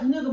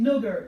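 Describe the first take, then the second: First: The word ends in an open 'ah' sound. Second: The word ends in an 'er' sound. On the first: It is a friendly term for a close companion. The speaker calls it right. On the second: It is a hostile insult. The speaker calls it wrong.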